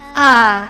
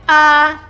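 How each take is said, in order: First: It is said tired, with no energy. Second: It is said flat, without any emotion. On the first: "say it as if you're dying. As if you're no energy" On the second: "The one with the flat line, uh you must say without any emotion"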